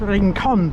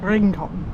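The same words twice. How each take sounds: First: The stress is on the last syllable. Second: The stress is on the first syllable. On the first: The speaker calls it right. "I know there should be an accent over the O. It's Rincon" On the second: The speaker calls it wrong. "not Rincon"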